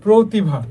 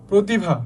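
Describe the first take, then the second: First: প্রতিভা with a long round "pro" at the start; stressed first syllable. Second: Said in the usual way. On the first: Shown as a demonstration. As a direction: lean on the ও in প্রতিভা, "proo-tibha". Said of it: "অ change হয়ে যাবে". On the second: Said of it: "অ এর মতো থাকবে না".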